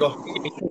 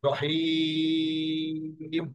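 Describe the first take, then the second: First: The word ends with a short i vowel. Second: The word ends on a final m consonant. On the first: The reading continues without stopping. "তখন আমরা এই শেষ করে টুকু দেবো না" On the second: The reader stops at this word. "যখন টুকুন দিয়া থামবো"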